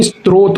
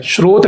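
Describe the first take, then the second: First: स्त्रोत with a clear t: strot; taught pronunciation. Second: स्रोत without a t in the opening cluster; rejected pronunciation. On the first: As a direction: open स्त्रोत on str. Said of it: "स्त्रोत होता है". (स्त्रोत में 'स्त्र' साफ़) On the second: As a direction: say स्रोत as shrot. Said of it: "स्रोत नहीं". (स्रोत 'श्रोत' जैसा, बिना त के) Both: Shown as a demonstration.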